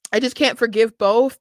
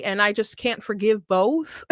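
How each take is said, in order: First: Said in the usual way. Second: Says it through a burst of laughter; laughing. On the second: Real, not acted. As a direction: laugh while you say it. Laughs while repeating her verdict.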